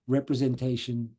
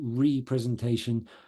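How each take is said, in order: First: The prefix runs smoothly into the rest of the word. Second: The prefix is set apart from the rest of the word. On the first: The ordinary term for political representation. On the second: Presenting again something that was made absent.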